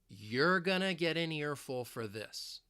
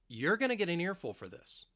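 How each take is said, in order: First: The sentence is spoken slowly. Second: The sentence is spoken fast. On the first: "I'll say it slowly" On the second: "let's say it a little faster"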